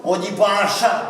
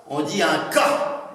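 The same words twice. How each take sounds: First: Said in the usual way. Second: "cas" spoken slow and hard, Norman style; patois "un cas" with a hard k, not "chat". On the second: Shown as a demonstration.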